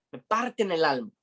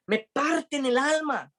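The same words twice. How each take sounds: First: Said in the usual way. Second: High and slow, aching; heartbroken. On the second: Retold or imitated. Pablo telling pleading friends they break his heart, high and slow. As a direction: let each word break with grief, slowly.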